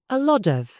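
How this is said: It is spoken with an American accent. The speaker calls it wrong.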